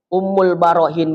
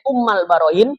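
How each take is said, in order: First: The first word ends with an u vowel. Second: The first word ends with an a vowel. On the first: The speaker calls it right. "dikembalikan kepada baris rofa, yaitu dommah" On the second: The speaker calls it wrong. "Ummal Barohin boleh"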